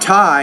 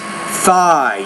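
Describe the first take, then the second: First: The word begins with a t sound. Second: The word begins with a th sound. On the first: The speaker calls it wrong. "it's not tie" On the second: The speaker calls it right. "it's thigh. You got to get the tongue between the teeth"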